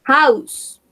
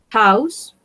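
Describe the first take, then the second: First: House called out louder, falling tune; teacher modelling the word House; louder model word. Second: Said in the usual way. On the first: Shown as a demonstration. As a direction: call House out clearly to the class. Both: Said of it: "modelling words to a class".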